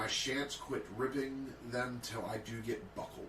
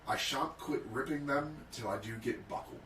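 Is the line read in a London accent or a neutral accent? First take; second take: neutral; London. First: It is read in the speaker's ordinary accent. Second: It is read in a broad London accent.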